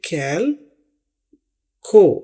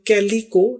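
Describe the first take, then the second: First: No vowel follows the L sound. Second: An 'ee' vowel follows the L sound. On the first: The speaker calls it right. "बल्कि कैल खो" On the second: The speaker calls it wrong. "इसे हम कैली को नहीं बोलेंगे"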